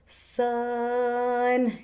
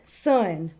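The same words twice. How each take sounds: First: The word is stretched out slowly. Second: The word is said quickly.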